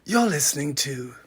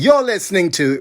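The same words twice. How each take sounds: First: It is said in a sexy, seductive voice. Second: It is said in a plain, ordinary voice.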